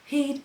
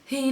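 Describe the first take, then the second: First: The word starts with a breathy h sound. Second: The same.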